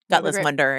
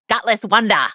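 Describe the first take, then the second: First: It is said in the speaker's normal accent. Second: It is said in a thick Australian accent. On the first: "if you can't parse my terrible Australian accent" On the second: "in the thickest Australian accent of all time"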